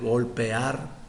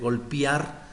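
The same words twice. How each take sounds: First: The word is said with clear, careful vowels. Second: The word is said with sloppy, altered vowels. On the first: The speaker calls it right. "en lugar de" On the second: The speaker calls it wrong. "aquí tenemos ciertos errores"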